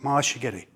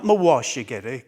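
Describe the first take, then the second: First: The middle syllable is reduced into a shorter form. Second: Every syllable, including the middle 'wa', is pronounced. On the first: The speaker calls it right. "That's the way you're supposed to pronounce it" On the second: The speaker calls it wrong. "not mawashigeri"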